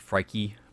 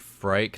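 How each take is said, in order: First: The name ends with an added 'ee' syllable. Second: The name is one syllable with no ending vowel. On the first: The speaker calls it wrong. "not Frikey" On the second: The speaker calls it right. "I think it's supposed to be Frike"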